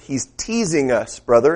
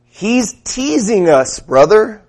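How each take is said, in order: First: Said in the usual way. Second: Higher, slow drawn-out church-brother voice; what I heard. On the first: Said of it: "That's what I heard". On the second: Retold or imitated. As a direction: stretch it out like a fervent congregant. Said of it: "here's what I heard".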